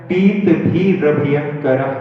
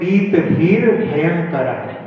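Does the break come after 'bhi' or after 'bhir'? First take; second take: after bhi; after bhir. First: The break comes after 'bhi', before 'rabhayankar'. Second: The break comes after 'bhir', before 'bhayankar'.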